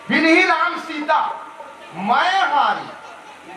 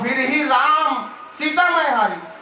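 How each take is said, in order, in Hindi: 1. 'सीता' के बाद और 'मैं हारी' से पहले विराम है। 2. 'सीता' के बाद कोई विराम नहीं है, वाक्य आगे चलता रहता है। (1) "अल्प विराम न लगा सही जगह" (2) "अल्प विराम न गलत लगा सकते हैं"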